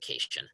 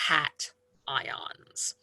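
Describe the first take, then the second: First: It rhymes with vacation, sounding like kay-shun. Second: It is split in two parts, cat and ion. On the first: The speaker calls it wrong. "as in like we all want to go on vacation. Please don't pronounce it cation" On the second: The speaker calls it right. "it's pronounced as if it were two separate words"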